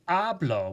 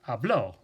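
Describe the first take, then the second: First: The stress is on the first syllable. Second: The stress is on the last syllable. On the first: I speak. "that's pronounced differently than saying hablo, which means I speak" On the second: He spoke. "because the accent mark is there, it's important to emphasize that"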